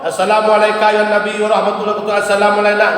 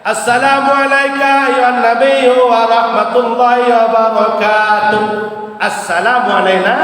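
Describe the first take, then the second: First: The second greeting follows with no pause. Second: There is a pause before the second greeting. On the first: The two greetings run together as one phrase. The speaker calls it wrong. "enggak boleh. Berarti itu kan disambung kan?" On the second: The two greetings are kept as separate phrases. The speaker calls it right. "jangan disambung"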